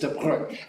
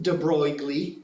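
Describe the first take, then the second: First: The name is said with French pronunciation. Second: The name is said with American pronunciation. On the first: The speaker calls it right. "It's de Broglie" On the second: The speaker calls it wrong. "not pronounced de Broglie ... that we would want to do in the United States"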